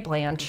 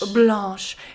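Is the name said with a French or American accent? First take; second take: American; French. First: It is said with an American accent. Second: It is said with a French accent.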